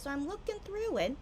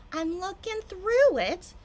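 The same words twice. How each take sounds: First: Said in the usual way. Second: Slow and louder, drawing it out; drawn-out suspense. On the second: Real, not acted. Tipsy streamer building up to the find, slow and suspenseful. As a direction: stretch each word to build the suspense.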